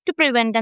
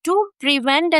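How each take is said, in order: First: The two words are run together into one. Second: The two words are said clearly and separately. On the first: "അതൊരു connected speech" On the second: "ടു പ്രിവെന്റ് എന്നതിന് പകരം"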